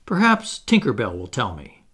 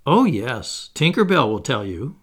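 First: Mildly piqued suggestion; a touch of huffiness, falling at the end; a little nettled. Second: Mildly scornful retort, rising at the end; light scorn. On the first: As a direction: needle her lightly. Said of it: "a little nettled". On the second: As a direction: throw it back with a touch of mockery. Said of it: "Wendy retorted scornfully". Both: A narrator's reading.

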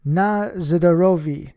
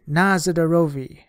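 First: Shouted slow toast; rowdy guests toasting loudly. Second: Loud answering cheer; party guests cheering the toast; shouted toast. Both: Acted. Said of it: "half a dozen voices shouted".

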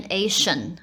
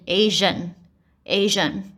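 First: Asian with a voiceless "sh"; wrong Asian. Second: Slow, Asian with a voiced "zh"; native-speaker Asian. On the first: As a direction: say Asian with an "sh" sound. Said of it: "也不是念Asian". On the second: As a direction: say Asian twice slowly, voicing the middle. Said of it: "而是念Asian". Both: Shown as a demonstration.

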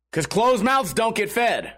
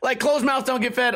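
First: Slow, self-satisfied quote of the waitress; smug saying. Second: Mock-parrot the saying, pitched higher; mocking repeat. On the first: Retold or imitated. The waitress smugly hands the streamer a slow proverb. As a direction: lay out the saying slowly like a lesson. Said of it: "And then she goes". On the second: The streamer mocks the waitress's proverb in a high sneer. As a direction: sneer the proverb back at her.

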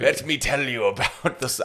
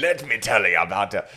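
First: Slow, failed attempt at a German accent; bad German accent. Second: Botched German accent sliding into pirate. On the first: Co-host clowning about the cashier, botched German accent. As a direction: try a German accent and miss. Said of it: "how to do a German accent". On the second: Co-host retrying after the pirate remark, bad German-pirate accent. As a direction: do German but land on pirate. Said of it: "That was a pirate". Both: Shown as a demonstration.

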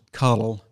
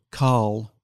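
First: First "Carl" said as "Carol", with a vowel between R and L; two-syllable name. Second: Last "Carl" run together as one long syllable; one-syllable name. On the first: Scot contrasting two pronunciations, two-syllable "Carol". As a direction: put a short vowel before the L, CAR-ul. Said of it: "if your name was Carl". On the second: Scot contrasting two pronunciations, "Carl" as one syllable. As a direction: say "Carl" with no vowel between R and L. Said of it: "you pronounce it Carl". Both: Shown as a demonstration.

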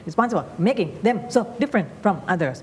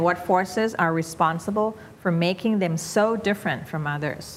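First: "responsible making them so different from others" bouncing word by word; overdone up-and-down. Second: Slow "what forces" through "others", gently linked; gradual, relaxed flow. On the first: Teacher mocking forced intonation, bouncing like tennis shots. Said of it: "มันก็จะกลายเป็นเหมือนยิงลูกเทนนิส". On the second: Teacher showing unforced reading, gradual smooth intonation. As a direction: ease along with light stress on "so different". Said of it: "ค่อยๆไป". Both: Shown as a demonstration.

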